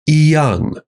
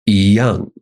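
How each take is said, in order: First: The first syllable has a high level tone. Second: The first syllable has a rising tone. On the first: The speaker calls it wrong. "you wouldn't say" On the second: The speaker calls it right. "changes from first tone to second tone"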